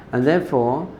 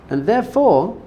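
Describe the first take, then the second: First: Said in the usual way. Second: Therefore lifted high and stretched; emphatic therefore. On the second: Real, not acted. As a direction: land hard on "therefore" pitched well up. Emphatic conclusion of teaching.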